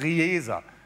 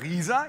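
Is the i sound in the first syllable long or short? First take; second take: short; long. First: The i sound in the first syllable is short. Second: The i sound in the first syllable is long. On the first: This is the name as a news report said it. The speaker calls it wrong. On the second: This is the town's usual name. The speaker calls it right. "Langes I"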